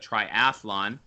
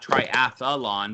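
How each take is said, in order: First: The word is said in three syllables. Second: An extra vowel splits the word into four syllables. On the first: The speaker calls it right. "but triathlon" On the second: The speaker calls it wrong. "not triathlon"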